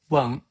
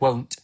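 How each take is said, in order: First: The final t is soft and glottalized. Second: The final t is fully released. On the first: The speaker calls it right. "I won't won't instead of" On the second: The speaker calls it wrong. "instead of won't"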